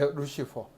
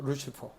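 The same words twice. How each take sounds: First: The middle consonant is an f sound. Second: The middle consonant is a p sound.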